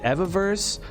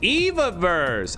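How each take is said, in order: First: The first syllable sounds like 'ever'. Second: The first syllable sounds like 'eve'. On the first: "Evaverse forever" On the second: "Adam and Eve"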